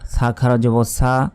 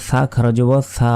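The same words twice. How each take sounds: First: The consonant is said like a plain 's'. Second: The consonant is said with the tongue out, like 'th'. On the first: The speaker calls it wrong. "সবগুলো একই রকম উচ্চারণ করি" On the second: The speaker calls it right. "জিহ্বা বের করে উচ্চারণ করতে হবে"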